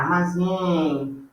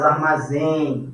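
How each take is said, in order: First: "armazém" slow, final ém held long; drawn-out nasal diphthong. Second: Said in the usual way. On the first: Shown as a demonstration. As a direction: stretch the last sound of "armazém". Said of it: "isso aqui como um som só". ("armazém" devagar, alongando o ém final) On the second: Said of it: "as palavras de nem".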